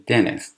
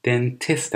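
First: "dentist" with the T after N left silent; American dropped T. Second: Said in the usual way. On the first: Shown as a demonstration. Teacher showing learners the American pronunciation, T dropped in "dentist". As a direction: say "dentist" as "dennis", no second T sound. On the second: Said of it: "اصلاً تلفظ نمیشه".

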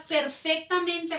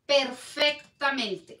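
First: Said in the usual way. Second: "Perfectamente" very slow, syllable by syllable; drawn-out emphasis. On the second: Real, not acted. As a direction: stretch out "Perfectamente" to stress it. Repeats the word for emphasis.

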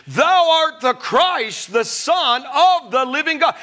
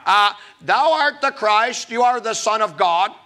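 First: Bold confession. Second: Hesitant guess. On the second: Disciples hesitantly guess answer. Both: Acted.

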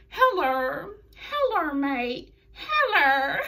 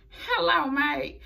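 First: Higher, laughing Australian "Hello, mate"; hammed-up Australian accent. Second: Quick, half-hearted stab at an Australian "Hello, mate"; mock Australian accent. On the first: Host retrying Ruby's mocking of Peyton, exaggerated Australian accent. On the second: Host imitating Ruby Riott mocking Peyton, weak Australian accent. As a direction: toss off a light Australian accent. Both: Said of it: "I couldn't even say it like them".

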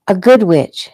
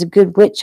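First: "good" punched higher and louder; stress on good. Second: Said in the usual way. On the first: A narrator's reading. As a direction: lean hard on "good" to correct him. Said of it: "emphasizing the good part". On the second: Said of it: "said again, emphasizing the good part".

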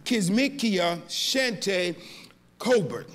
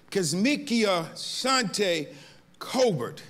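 First: Kizmikia Shante Colbert spelled out slowly, each part weighted; name with emphasis. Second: Kizmikia Shante Colbert even slower, syllable by syllable; name with emphasis. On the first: Pastor honoring the scientist's full name, slow and emphatic. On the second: Pastor repeating the full name for the church, slow and emphatic. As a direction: lean on Kizmikia and draw it out. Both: Shown as a demonstration. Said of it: "I only say that name with emphasis".

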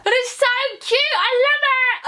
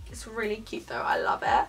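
First: Very high, gushing squeal; excited squeal. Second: Said in the usual way. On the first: Real, not acted. Vlogger gushing over her new bra, excited squeal. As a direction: squeal with delight, pitched right up and loud.

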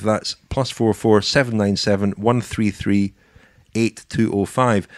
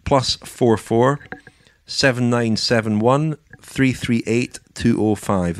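First: Said in the usual way. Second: Slow, spaced digits for listeners to note down; slow dictation. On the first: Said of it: "repeats the number". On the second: Shown as a demonstration. Host gives listeners the number to call, slowly dictated. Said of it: "dictates the number to call".

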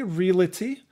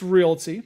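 First: Realty said as "real-uh-tee"; realty with an extra syllable, ree-luh-tee; old mispronunciation. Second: Realty said as two syllables, "reel-tee"; realty said cleanly as "reel-tee"; correct pronunciation. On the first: Mispronouncing realty as "real-uh-tee". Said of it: "It's realty". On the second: Correcting himself, realty as "reel-tee". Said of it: "I used to say realty". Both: Shown as a demonstration.

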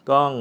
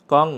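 Both takes have the same delivery.

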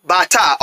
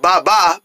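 First: "Bata" said with a t in the middle, bah-tah; the corrected "Bata", a clear t in the middle; corrected word. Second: "Baba" said with a b in the middle, bah-bah; the misread version "Baba", both syllables with b; wrong word. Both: Shown as a demonstration. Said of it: "It says Bata, not Baba".

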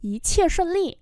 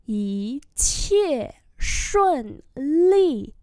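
First: Said in the usual way. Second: Very slow, each tone drawn out; slow-motion tone model; slow demonstration. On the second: Shown as a demonstration. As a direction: stretch every syllable for learners. Teacher repeats slowly for learners.

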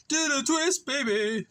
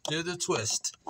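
First: Sung, belt it like an oldies chorus; sung line. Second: Said in the usual way. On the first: Pretend. Singing along playfully.

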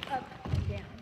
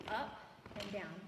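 First: Called out loud on the count. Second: Said in the usual way. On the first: Shown as a demonstration. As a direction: shout the move like a cue. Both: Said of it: "I'm gonna do it with a foot".

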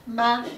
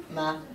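First: "Ma" as a separate beat, higher and louder; punched first syllable "Ma", cut off on its own; syllable demonstration. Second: "ma" as a separate beat, lower and softer than a first syllable; second syllable "ma" on its own, unstressed; syllable demonstration. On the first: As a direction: clap out "Ma" firmly, then stop. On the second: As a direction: let "ma" drop as the closing clapped syllable. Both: Shown as a demonstration. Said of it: "podzielę na takie kawałki".

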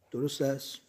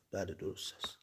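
First: Said in the usual way. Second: Much softer, lower yes of agreement; soft lowered affirmation; quiet reply. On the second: A narrator's reading. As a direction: drop the voice and simply confirm درست است.

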